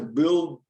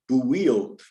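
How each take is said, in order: First: The vowel has only a slight 'oo' sound. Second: The vowel has a strong Spanish 'oo' sound. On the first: "maybe it's not one hundred percent pronounced the right way, but it's understandable" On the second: "he likes to try and pronounce that phonetically, like build"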